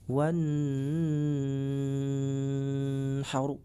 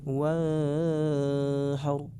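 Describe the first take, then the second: First: The n sound is held and nasalized. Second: The n sound is blurred and barely heard. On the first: "dengan menahan suara atau mendengungkan suara seperti ini" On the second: "disamar-samarkan suara nunnya"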